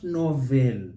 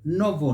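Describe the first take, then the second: First: "novel" as no-VELL; wrong full EL. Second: "Novel" as NOV-ul; silent E. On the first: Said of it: "not novel". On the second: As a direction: swallow the e in "Novel". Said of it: "So we say". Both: Shown as a demonstration.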